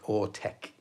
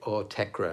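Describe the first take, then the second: First: The name ends without a final -ra sound. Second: The name ends with a pronounced -ra sound. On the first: "they just decided like the R E at the end is silent" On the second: "I heard other people say Autekra"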